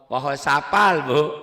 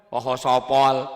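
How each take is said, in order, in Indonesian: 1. Konsonan dan vokalnya terdengar ringan dan terbuka. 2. Konsonan dan vokalnya terdengar berat dan bulat. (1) "Sin bukan sod" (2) "Sin bukan sod"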